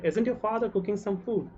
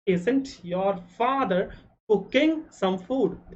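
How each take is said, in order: First: Said in the usual way. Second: Very slow, word by word; slow dictation. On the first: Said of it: "teacher repeats at normal pace". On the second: Shown as a demonstration. Teacher dictating to Hindi-speaking students, slowly and deliberately. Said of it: "teacher dictating the English sentence".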